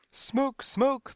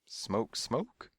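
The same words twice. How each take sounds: First: High, repetitive parroted scream; mechanical scream. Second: Puzzled questioning, rising at the end; quizzical. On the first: Crowd parrots the panic, screaming mechanically. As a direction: scream it by rote. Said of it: "they screamed mechanically". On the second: Selma opens the door on silence, quizzical. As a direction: echo the alarm as a question. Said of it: "she said quizzically". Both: A narrator's reading.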